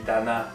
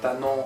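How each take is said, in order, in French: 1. Il est prononcé avec une voyelle du français québécois. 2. Il est prononcé avec une voyelle du français de France. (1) "nous on dit" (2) "il faut dire"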